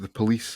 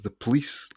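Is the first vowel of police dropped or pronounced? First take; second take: pronounced; dropped. First: The first vowel of police is fully pronounced. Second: The first vowel of police is dropped. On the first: The speaker calls it right. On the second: The speaker calls it wrong.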